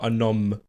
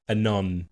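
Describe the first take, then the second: First: The fragment ends with an m sound. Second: The fragment ends with an n sound. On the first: The speaker calls it wrong. "Not anom" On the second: The speaker calls it right.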